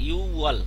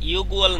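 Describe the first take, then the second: First: No g sound comes before the w. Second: A g sound comes before the w. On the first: The speaker calls it right. "উচ্চারণ হবে ইউওয়াল" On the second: The speaker calls it wrong. "ইউগুয়াল না"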